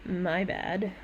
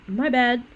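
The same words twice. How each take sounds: First: Provoking fake sorry; icy "my bad." after a pause; cold apology. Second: Light, casual "my bad"; easy, friendly sorry; breezy "my bad"; friendly apology. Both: Shown as a demonstration. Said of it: "The two words were".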